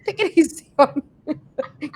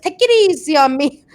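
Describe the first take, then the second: First: Laughing. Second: Said in the usual way. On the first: Retold or imitated. Repeated while laughing.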